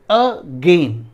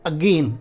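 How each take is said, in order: First: "again" split: a, then loud gain; syllable breakdown. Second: Said in the usual way. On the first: Shown as a demonstration. Teacher showing a two-syllable word, broken apart. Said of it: "break होगा". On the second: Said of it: "जब हम लोग बोलते हैं again".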